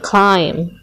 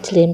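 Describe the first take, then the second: First: The vowel is a gliding 'eye' sound. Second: The vowel is a short 'ih' sound. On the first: The speaker calls it right. "tetapi dibaca climb" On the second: The speaker calls it wrong. "jangan dibaca climb"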